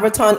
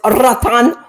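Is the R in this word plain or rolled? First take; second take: plain; rolled. First: The R is said plain, not rolled. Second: The R is rolled. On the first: The speaker calls it wrong. "It's not Roatan" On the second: The speaker calls it right. "You got to roll your R"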